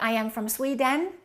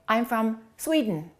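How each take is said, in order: First: The second vowel of Sweden is full. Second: The second vowel of Sweden is reduced. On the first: The speaker calls it wrong. "So don't say" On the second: The speaker calls it right.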